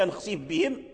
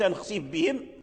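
First: The f is merged into the following b. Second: The same.

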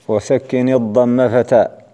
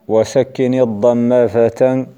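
The two takes are said the same way.

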